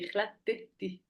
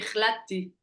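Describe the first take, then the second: First: The middle 't' syllable is pronounced. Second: The middle 't' syllable is dropped. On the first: The speaker calls it right. "Non, c'est pas ça, c'est ikhlati" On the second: The speaker calls it wrong. "tu prononces comme il n'y a pas. un- Tu dis ikhlati"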